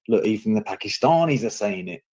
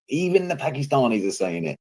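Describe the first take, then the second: First: Said in the usual way. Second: EVEN pitched high to drive it home; emphatic repeat. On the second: Retold or imitated. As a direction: hit the word EVEN high, imitating someone making a point. Quotes right wing, repeats for emphasis.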